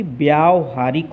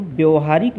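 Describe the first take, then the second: First: "व्यावहारिक" with a long aa, vyaa-vahaarik; correct long vowel. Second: "व्यवहारिक" with a short a, vyav-haarik; "व्यवहारिक" as the wrong form; wrong vowel. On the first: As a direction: stretch the first vowel of "व्यावहारिक". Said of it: "बल्कि व्यावहारिक होता है". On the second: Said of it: "व्यवहारिक नहीं". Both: Shown as a demonstration.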